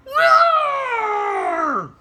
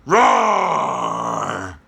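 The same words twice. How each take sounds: First: Very high, loud puppet roar; a squeaky little lion roar. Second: A big lion roar from the chest; loud roar. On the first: Carmen puppet roars for the class, very high and loud. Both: Acted. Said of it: "you do a loud roar".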